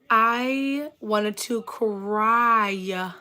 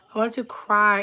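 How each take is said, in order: First: Very slow, every word stretched; dramatic drawn-out misery. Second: Said in the usual way. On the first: Retold or imitated. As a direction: drag it out for dramatic effect. Emphatic retelling of childhood embarrassment.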